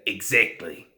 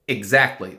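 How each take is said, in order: First: It is said in a New Zealand accent. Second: It is said in a plain American accent.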